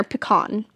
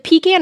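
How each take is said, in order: First: Pecan said as puh-KAHN; puh-KAHN version. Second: Pecan said as PEE-can; PEE-can version. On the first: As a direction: stress the last syllable of pecan, "puh-KAHN". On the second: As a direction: stress the first syllable of pecan, "PEE-can". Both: Shown as a demonstration. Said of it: "Is it pecan or pecan?".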